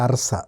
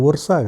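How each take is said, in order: First: The name starts with an 'ah' vowel. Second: The name starts with an 'oo' vowel. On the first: The speaker calls it right. "అదేంటి అర్సా" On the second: The speaker calls it wrong. "అది అసలు ఉర్సా కాదు"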